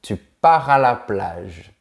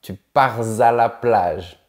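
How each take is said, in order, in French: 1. Les mots sont prononcés sans consonne de liaison. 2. Une consonne de liaison relie les mots. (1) "On dit" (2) "on ne dit pas"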